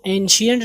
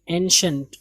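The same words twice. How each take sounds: First: "اینشینٹ" in three syllables; mispronounced ancient. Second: "اینشنٹ" as en-shunt, two syllables; "اینشنٹ" without an ee in the middle; correct ancient. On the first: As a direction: say "اینشینٹ" with an extra ee syllable, en-shi-ent. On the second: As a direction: say "اینشنٹ" ending in a short shunt. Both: Shown as a demonstration. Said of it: "اس کو اینشینٹ نہیں پڑھیں گے".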